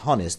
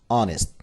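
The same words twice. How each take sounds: First: The word starts with an audible h sound. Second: The word starts with no h sound. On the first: The speaker calls it wrong. "we shouldn't say honest" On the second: The speaker calls it right. "H is silent, it is honest"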